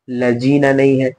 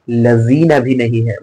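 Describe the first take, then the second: First: लजीना said with a hard j, marked wrong; wrong j sound. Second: लजीना with a plain z, marked wrong; wrong z sound. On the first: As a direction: say लजीना with j like jeem, slowly. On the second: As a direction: say लजीना with an ordinary z, slowly. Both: Shown as a demonstration.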